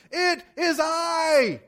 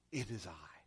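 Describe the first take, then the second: First: Slow, high, full-lunged shout; yelling. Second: Very low, soft voice; quiet reassurance. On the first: Jesus calling to disciples through howling wind, yelling. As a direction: yell each word out over the wind. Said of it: "yelling this at the top of his lungs". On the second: Jesus telling the disciples not to fear, quiet reassurance. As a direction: say it softly and low, to calm them. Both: Acted.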